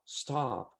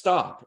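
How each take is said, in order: First: It is said in a low, weak voice. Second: It is said in a strong, confident voice. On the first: The speaker calls it wrong. "and I do it low, it doesn't sound" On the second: The speaker calls it right. "I said it confidently"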